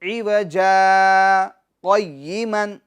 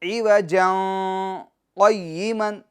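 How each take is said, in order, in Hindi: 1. पहला शब्द लंबे स्वर पर खत्म होता है। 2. पहला शब्द नासिक्य न पर खत्म होता है। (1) "ये दुरुस्त है" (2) "तनवीन के साथ पढ़ते हैं, गुन्ना करके पढ़ते हैं, तो ये गलत है"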